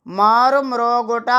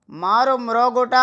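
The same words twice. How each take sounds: The two takes are said the same way.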